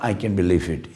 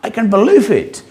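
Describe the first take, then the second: First: It is said flatly as a statement. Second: It is said with excited feeling.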